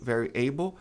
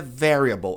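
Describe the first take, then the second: First: Variable with stress on the A, said as A; wrong pronunciation. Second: Variable stressed on the first syllable; correct pronunciation. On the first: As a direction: variable as most Brazilians say it. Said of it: "A maioria das pessoas pronuncia variable". (pronúncia errada de variable) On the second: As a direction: variable with a clear L at the end. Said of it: "A pronúncia correta é variable". (pronúncia correta de variable) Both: Shown as a demonstration.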